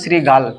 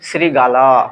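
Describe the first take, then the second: First: The word ends on the final l sound. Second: The word ends with a vowel after l. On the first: "দেখো এটা কিন্তু শ্রীগাল" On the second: "আর এই উচ্চারণটা কি জানো?"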